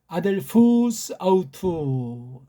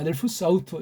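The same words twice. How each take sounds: First: It is read slowly, with long vowels drawn out. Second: It is read quickly, running the words together. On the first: "일부러 긴 듯한 모음은 길게 구분을 해줬고" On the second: "조금 약간 속도를 내서 읽어봤습니다"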